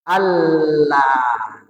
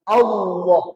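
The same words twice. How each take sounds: First: The 'l' sounds light and thin, with a bright vowel. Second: The 'l' sounds heavy and full, with a deep vowel. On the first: The speaker calls it wrong. "bagaimana kalau ada orang baca tipis?" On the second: The speaker calls it right. "Allahu itu harus dibaca tebal"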